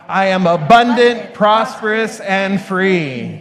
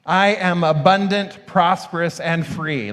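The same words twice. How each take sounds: First: It is said with strong, believing conviction. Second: It is said plainly, without special conviction.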